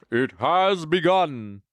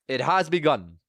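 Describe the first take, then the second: First: Slow, drawn-out mock-epic announcement; grandly slow, put-on voice; dramatic announcement. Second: Said in the usual way. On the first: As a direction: stretch it out like an epic proclamation.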